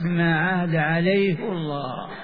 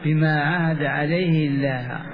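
First: The final word has a full, heavy L sound. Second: The final word has a thin, light L sound. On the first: "قراءة حفص" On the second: "بالتخفيف بالكسر، واسم الجلال مرقق"

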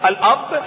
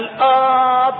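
First: The first vowel is short. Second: The first vowel is drawn out long.

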